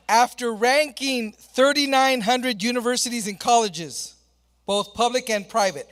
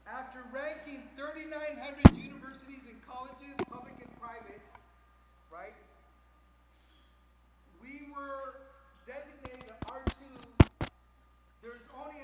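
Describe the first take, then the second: First: Said in the usual way. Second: Talking off mic. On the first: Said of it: "Is it doing it again?". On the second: Real, not acted. Presenter restarting after mic trouble, talking off mic. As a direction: address the room without the microphone. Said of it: "let's just talk like this".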